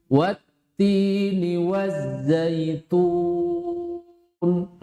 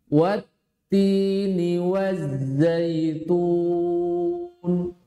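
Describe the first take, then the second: The two takes are said the same way.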